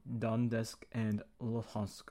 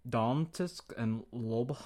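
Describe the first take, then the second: First: "Donetsk and Luhansk" said slowly and deliberately, each name carefully spelled out in sound; slow, steady retry of "Donetsk and Luhansk"; careful corrected pronunciation. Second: "Donetsk and Lob-" fumbled, breaking off at "Lob-"; slow, halting try at "Donetsk and Lob-"; stumbling pronunciation. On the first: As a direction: carefully get "Donetsk" and "Luhansk" right the second time. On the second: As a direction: trip over "Lob-" and stop short. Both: Real, not acted. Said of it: "I can't pronounce it".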